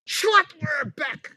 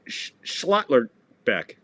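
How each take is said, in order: First: Schlotterbeck high and slow, Shlot-ter-beck; proud correct name. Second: Schlotterbeck sounded out slowly, Shlot-ter-beck; slow careful name. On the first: Commentator proudly saying the name he just learned. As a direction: nail Schlotterbeck with a triumphant lift. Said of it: "Now I know how to say it". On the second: Commentator learning the player's name, saying it slowly. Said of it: "she called him Schlittler". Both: Shown as a demonstration.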